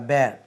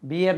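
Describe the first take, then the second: First: The vowel sounds like 'air'. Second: The vowel sounds like 'ear'. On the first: The speaker calls it right. "इसका तलफ़ुज़ बैर होता" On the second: The speaker calls it wrong. "बियर नहीं होता"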